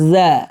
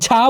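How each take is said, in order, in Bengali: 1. প্রথম ব্যঞ্জনটি গুঞ্জনমূলক 'z' ধ্বনি। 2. প্রথম ব্যঞ্জনটি 'jh' ধ্বনি। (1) "জিদি পোকার মতন সাউন্ড হবে যা" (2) "অনেকে ঝা বলে ফেলি, ঝা হবে না"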